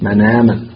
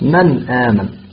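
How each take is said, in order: First: The n sound is joined to the following vowel. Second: The n sound is clear and fully pronounced. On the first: "ينقل حركة الهمز إلى الساكن قبلها" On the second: "وإنما تنطقها كاملة بزمنها الأصلي"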